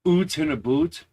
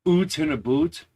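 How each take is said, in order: First: It is an exaggerated stereotyped Canadian accent. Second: The same.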